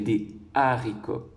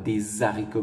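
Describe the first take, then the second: First: No z sound joins des and haricots. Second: A z sound links des to haricots. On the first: The speaker calls it right. "mais des haricots" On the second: The speaker calls it wrong. "Nous ne dirons pas"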